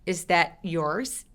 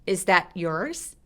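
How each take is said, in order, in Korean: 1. t는 멈췄다가 끊어서 따로 발음해요. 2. t는 멈췄다가 끊어서 따로 발음해요.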